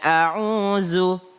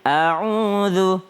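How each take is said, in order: First: The last consonant is a buzzing z sound. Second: The last consonant is made with tongue on teeth. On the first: The speaker calls it wrong. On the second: The speaker calls it right. "Kalau za, a'udzu itu lidah bertemu dengan gigi atas"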